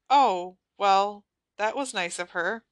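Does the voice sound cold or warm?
warm. The voice sounds warm and friendly. The speaker is pleased. The speaker calls it wrong.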